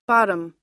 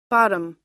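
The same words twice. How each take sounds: Both takes have the same delivery.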